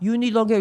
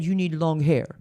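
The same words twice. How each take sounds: First: It is said in an attempted French accent. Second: It is said in her own accent.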